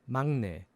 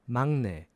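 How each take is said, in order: Both takes have the same delivery.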